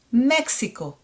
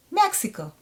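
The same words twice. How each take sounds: First: Mexico as MEK-SI-KO, pure short O; Hebrew-style "Mexico", no glide on the O; Hebrew pronunciation. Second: Mexico higher, ending in gliding OH; English "Mexico" with diphthong O; familiar English pronunciation. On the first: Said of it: "It's going to be Mek". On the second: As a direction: say "Mexico" the English way, MEK-si-koh. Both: Shown as a demonstration.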